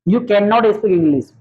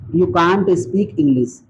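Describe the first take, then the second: First: The negative is said as two separate words. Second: The negative is contracted into one syllable. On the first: "या कर दो आप कैन नॉट, अलग अलग भी कर सकते हो" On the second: "या तो आप लगा दो कांट"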